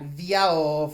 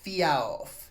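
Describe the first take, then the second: First: It opens with a clear v sound. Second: It opens with a clear f sound. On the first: "it's not viaov" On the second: "or fiaov"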